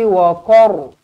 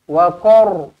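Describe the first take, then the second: The two takes are said the same way.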